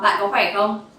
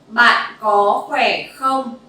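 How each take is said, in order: First: The phrase is said at a faster speed. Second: The phrase is said at a normal speed. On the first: "Now let's go a little bit faster" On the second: "one more time"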